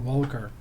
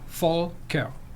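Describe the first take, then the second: First: The name begins with a W sound. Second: The name does not begin with a W sound. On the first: "you pronounce the V like a W" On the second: "if you say it right, it is actually Volker. You split it in the middle"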